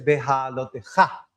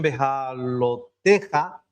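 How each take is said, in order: First: The stress falls on the final syllable. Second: The stress falls before the final syllable. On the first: The speaker calls it right. "esta palabra es aguda" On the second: The speaker calls it wrong. "hay muchos que lo pronuncian"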